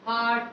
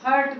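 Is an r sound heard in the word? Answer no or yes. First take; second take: no; yes. First: No r sound is heard in the word. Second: An r sound is heard in the word. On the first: The speaker calls it right. "इसमें आर का sound नहीं आता है" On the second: The speaker calls it wrong. "हर्ट बोलते हैं"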